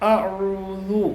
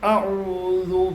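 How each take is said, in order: The two takes are said the same way.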